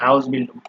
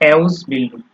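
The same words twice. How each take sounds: First: The word is read with German pronunciation. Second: The word is read with English pronunciation.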